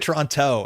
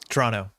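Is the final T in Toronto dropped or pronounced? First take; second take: pronounced; dropped. First: The final T sound is clearly pronounced. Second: The final T sound is dropped. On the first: The speaker sounds like an outsider. The speaker calls it wrong. "you're an outsider suddenly" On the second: The speaker sounds like a local. The speaker calls it right. "don't say the last T on Toronto"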